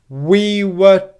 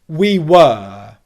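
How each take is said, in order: First: The word 'were' is short and unstressed. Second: The word 'were' is full and stressed. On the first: "Listen to how it becomes unstressed" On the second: "we'll start with the strong pronunciation"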